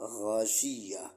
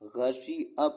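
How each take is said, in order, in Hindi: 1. 'य' की ध्वनि अंतिम स्वर से पहले आती है। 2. ग्लोटल स्टॉप अंतिम स्वर से पहले आता है। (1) "वाई का साउंड तो वा या ही आना चाहिए" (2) "लोग ... या ना करके ए निकाल लेते हैं"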